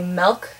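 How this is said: It is said with a Midwestern vowel. "we say milk"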